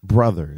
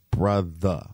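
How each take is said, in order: First: The word ends with a hard R sound. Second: The word ends with the R sound dropped. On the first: The speaker calls it wrong. "people be hitting that hard ER with the brother. It's not brother" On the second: The speaker calls it right. "it's brother, all right? BRUTHA"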